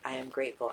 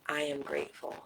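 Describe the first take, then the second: First: It is said quickly. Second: It is said slowly.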